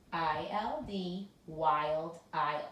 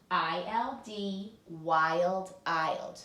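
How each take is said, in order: First: Chanted, "I L D" slow, then "wild"; drill chant. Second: Drill chant. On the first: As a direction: chant it for the class to echo. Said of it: "You try". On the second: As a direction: chant the drill, stressing "wild". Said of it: "we say in our drill". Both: Shown as a demonstration.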